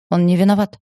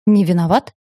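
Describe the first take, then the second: First: Said in the usual way. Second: A mildly raised, disbelieving question; incredulous echo. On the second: A narrator's reading. Husband echoing his wife's defence of the guard, incredulous question. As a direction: throw the words back in disbelief. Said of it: "У Киана чуть глаз не задёргался".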